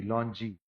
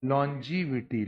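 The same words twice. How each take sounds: First: लॉन्जी cut short to two syllables, lon-ji; the lazy shortened लॉन्जी students use; clipped wrong form. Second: लॉन्जिविटी said slowly and in full, lon-ji-vi-ti; slow, complete लॉन्जिविटी as the right form; correct pronunciation. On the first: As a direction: drop the ending and say only लॉन्जी. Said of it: "लॉन्गी नहीं बोलते". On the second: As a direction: give the whole word लॉन्जिविटी carefully, syllable by syllable. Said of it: "pronunciation क्या बच्चों?". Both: Shown as a demonstration.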